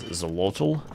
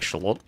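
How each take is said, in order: First: The word begins with a z sound. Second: The word begins with a sh sound. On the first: The speaker calls it wrong. "I want to read that as Zolotl" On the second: The speaker calls it right. "but I think it's more like Shalot"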